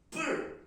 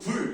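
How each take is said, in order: First: The first consonant is tense and forceful. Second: The first consonant is plain and lax. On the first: This is how Chinese speakers read the character. "된소리를 집어넣고 리을 받침이 잘 들릴 듯 말 듯하게" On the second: This is how Koreans read the character. "우리는 불 이렇게 하고"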